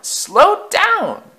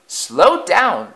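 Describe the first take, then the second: First: Much higher, louder panic; shrieking wail. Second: Higher, louder plea; wailing. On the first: Coaches panicking at speed, shrieking wail. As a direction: scream it in terror. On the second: Old coaches begging Afton to slow, wailing. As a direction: cry out in fright. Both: A narrator's reading. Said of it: "they wailed".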